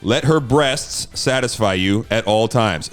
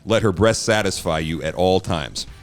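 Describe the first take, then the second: First: The phrase is spoken at a slower pace. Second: The phrase is spoken at a quicker pace. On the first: The speaker calls it right. "I got to say that slower" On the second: The speaker calls it wrong. "it sounded like I said, let her breath satisfy you"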